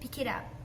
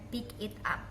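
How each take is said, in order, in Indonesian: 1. Kata-katanya disambung menjadi satu kesatuan yang mengalir. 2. Kata-katanya diucapkan terpisah, satu per satu. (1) "Biasanya mereka melink menjadi" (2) "Jarang sekali native berbicara dengan"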